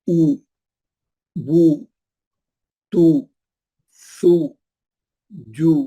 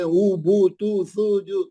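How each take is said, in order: First: Each syllable is said separately with pauses. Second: The syllables run together in one breath. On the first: The speaker calls it right. "हर बार एक एक हर्फ अलग अलग करके पढ़ो" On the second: The speaker calls it wrong. "एक ही सांस में ऊ बू तू सू जू, गलत है वो"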